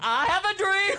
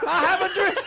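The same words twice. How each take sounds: First: Mock orator. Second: Louder speech-giver voice, laughing; mock orator. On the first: Quoting the famous speech. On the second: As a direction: orate it grandly, laughing. Echoing the famous speech.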